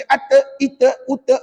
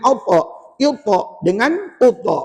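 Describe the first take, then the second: First: "ata, ita, uta" with a light t and thin vowel; thin letter. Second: "alta, ilta, uta" with a heavy, rounded t; thick ta. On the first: Teacher showing what is not allowed, thin "ata, ita, uta". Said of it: "itu nipis". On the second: Teacher giving the correct reading, thick "alta, ilta, uta". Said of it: "Dia kena". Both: Shown as a demonstration.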